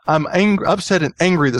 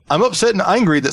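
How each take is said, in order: First: It is read in the speaker's plain accent. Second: It is read in a put-on British-style accent.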